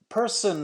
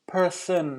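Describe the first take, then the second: First: The middle consonant is a clear S sound. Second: The middle consonant is a TH sound. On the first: The speaker calls it right. "Person has the, an S sound added to it" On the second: The speaker calls it wrong. "I heard a T H there"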